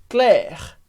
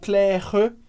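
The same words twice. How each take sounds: First: The word ends on the R with no vowel. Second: A vowel sound is heard after the final R. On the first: The speaker calls it right. "A gente pronuncia o R, mas não pronuncia o E" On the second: The speaker calls it wrong. "por que que não é Claire ou Claire?"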